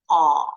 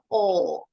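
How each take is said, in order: First: The vowel is said with slightly wider lips. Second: The vowel is said with strongly rounded lips. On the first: "kalau American English pronunciation, agak lebar sedikit" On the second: "Tadi bibirnya lebih monyong"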